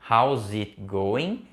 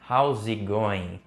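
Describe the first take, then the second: First: Each word is said separately and carefully. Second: It is said fast, the words run together.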